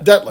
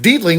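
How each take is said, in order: First: The first vowel is a short 'e' sound. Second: The first vowel is a long 'ee' sound. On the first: The speaker calls it right. "It's not deet. It's det" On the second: The speaker calls it wrong. "They always said it Dietling, which would be D E E T L I N G"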